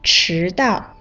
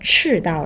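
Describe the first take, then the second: First: The first syllable has a rising tone. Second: The first syllable has a falling tone. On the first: It means arriving late. "迟是2 声" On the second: It means the equator. "把迟念成了4 声，就变成赤道了"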